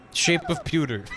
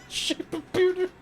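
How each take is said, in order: First: Said in the usual way. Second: Much higher, slow, giggling; squeaky mock repeat. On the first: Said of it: "laughs, repeats". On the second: The player mocking his own pun, high and giggly. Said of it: "mock repeat".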